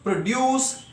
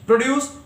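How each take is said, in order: First: The stress is on the second syllable. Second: The stress is on the first syllable. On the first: It is used as a verb. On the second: It is used as a noun or adjective.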